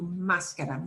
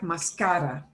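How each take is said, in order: First: The stress is on the first syllable. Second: The stress is on the second syllable. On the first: The speaker calls it right. "we have to write an accent mark where we do want you to punch the sound more" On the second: The speaker calls it wrong. "if I had no written ask, accent mark there, Cynthia, it would sound like mascara"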